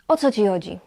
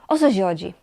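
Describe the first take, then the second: Both takes have the same delivery.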